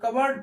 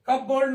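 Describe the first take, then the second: First: The p is silent, like cubberd. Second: The p is pronounced, like cup board. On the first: The speaker calls it right. "इसको हम कबर्ड पढ़ते हैं। यहाँ पे P silent हो जाता है" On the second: The speaker calls it wrong. "कप बोर्ड नहीं"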